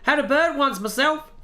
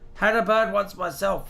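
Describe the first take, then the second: First: It is said in a put-on Australian accent. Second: It is read in the speaker's ordinary accent.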